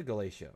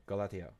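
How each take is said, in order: First: Galatia said "guh-LAY-shuh"; anglicized pronunciation. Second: Galatia said "gah-LAH-tee-uh"; alternative pronunciation. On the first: Player coaxing a trade partner, Galatia as "guh-LAY-shuh". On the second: Player retrying the faction's name, Galatia as "gah-LAH-tee-uh". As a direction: say Galatia with a hard t. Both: Shown as a demonstration. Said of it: "might be pronouncing your name wrong".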